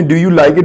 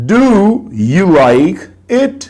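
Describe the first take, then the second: First: Said in the usual way. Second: "Do you like it?" very slow, word by word, rising on "it"; teacher spelling out the tune of "Do you like it?" with long, separated words; intonation pattern demo. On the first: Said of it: "जब आपने do you like it बोला है". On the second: Shown as a demonstration. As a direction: stretch each word of "Do you like it?", lifting the last. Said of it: "The words that are in bold show the intonation pattern".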